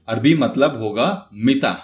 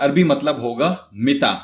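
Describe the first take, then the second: No difference in how they are said.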